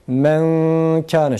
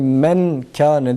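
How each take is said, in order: First: The n is hidden as a nasal sound. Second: The n is pronounced fully and clearly. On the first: The speaker calls it right. "sakin nunu okumuyoruz" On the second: The speaker calls it wrong. "değil"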